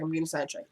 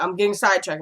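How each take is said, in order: First: Much softer repeat, half to herself; quiet self-scolding aside; muttered to self. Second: Said in the usual way. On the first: Real, not acted. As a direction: mutter it under your breath.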